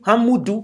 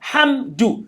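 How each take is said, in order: First: An extra vowel sits between m and d. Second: The m runs straight into the d. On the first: The speaker calls it wrong. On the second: The speaker calls it right. "The meme is sukun"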